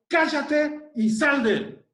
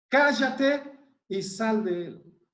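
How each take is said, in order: First: Higher, slower commanding rebuke; stern rebuke. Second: Slowly restated, without the rebuke's force; slow plain restatement. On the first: Acted. Jesus rebuking the unclean spirit, stern and commanding. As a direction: order the spirit out with full authority. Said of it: "Jesús le reprendió diciendo". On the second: Shown as a demonstration. Preacher repeating the command for the congregation, slow and calm. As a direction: lay the words out calmly for the listeners. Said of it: "Esas palabras solamente".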